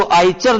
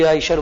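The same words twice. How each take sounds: First: आईशर mispronounced as आईचर, with च for श; wrong ch sound. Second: Said in the usual way. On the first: Shown as a demonstration. Teacher warning students off a mistake, आईचर said with "ch". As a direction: say आईचर with a "ch" in the middle. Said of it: "आईचर न बोल करके". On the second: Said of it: "आईशर बोला जाता है".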